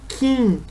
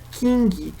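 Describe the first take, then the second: First: The word ends without any g sound. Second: The word ends with an audible g sound. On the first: The speaker calls it right. "mas sim Kim. Esquecer esse G no final" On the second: The speaker calls it wrong. "não se pronuncia King"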